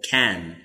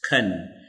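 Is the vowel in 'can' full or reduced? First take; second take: full; reduced. First: The word is said with a full vowel. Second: The word is said with a reduced vowel. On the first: It is a short answer. "we use the strong form" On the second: It is an ordinary question. "we use the weak form, we pronounce"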